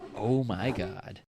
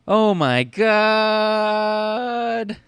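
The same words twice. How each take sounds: First: It is said plainly, without much drama. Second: It is said in an exaggerated, dramatic way. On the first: The speaker calls it wrong. "That's not how you say "oh my god,"" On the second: The speaker calls it right. "You're supposed to say it like this"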